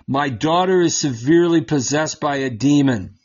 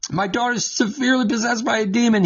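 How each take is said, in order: First: Said in the usual way. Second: Rattled off fast and high; fast, higher replay of the line; quick recap. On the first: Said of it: "came out and cried". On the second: Acted. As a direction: hurry through the woman's plea. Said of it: "look what happens".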